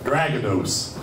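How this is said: The name is said with an American pronunciation. The speaker calls it wrong. "the way Americans say Dragados"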